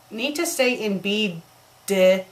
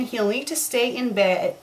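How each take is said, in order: First: "B" and "D" spoken as two separate letters; read as letters B D. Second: Said in the usual way. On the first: Shown as a demonstration. Reading the typo aloud as "B D". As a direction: spell out "B D" with a pause between. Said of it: "it says B D". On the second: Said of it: "they have a space between".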